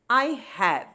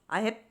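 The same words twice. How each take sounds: First: Both words are said fully and separately. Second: The words are run together quickly as one.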